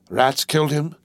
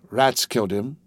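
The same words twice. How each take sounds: First: Horrified disbelieving question; shocked question. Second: Said in the usual way. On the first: A narrator's reading. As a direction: echo it back in shock. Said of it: "Yorgos gave a gasp". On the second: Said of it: "she answered".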